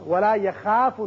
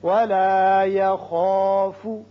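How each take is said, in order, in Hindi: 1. kh के बाद का स्वर पतला और हल्का सुनाई देता है। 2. kh के बाद का स्वर भरा हुआ और भारी सुनाई देता है। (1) "नहीं पढ़ना" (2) "खा करके"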